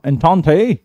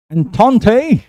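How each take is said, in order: First: "एंथोंथे" repeated with a rising end; pronunciation demo. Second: "एंथोंथे" said slowly, stressing the first syllable; pronunciation demo. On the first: Teacher repeating "एंथोंथे" for students, rising tune. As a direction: echo "एंथोंथे" as a check. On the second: Teacher demonstrating "एंथोंथे" to students, clear and careful. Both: Shown as a demonstration. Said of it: "इसका मैंने pronunciation दे के सुना तो ऐसी था".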